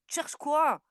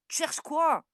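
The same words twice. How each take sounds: The two takes are said the same way.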